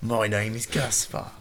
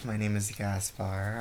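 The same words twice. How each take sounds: First: It is said in a put-on character voice. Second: It is said in his normal voice.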